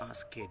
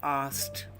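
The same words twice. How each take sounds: First: The K sound in the word is pronounced. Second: The K sound in the word is silent. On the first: The speaker calls it wrong. "It is not asked" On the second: The speaker calls it right. "K is silent and ed is soft T"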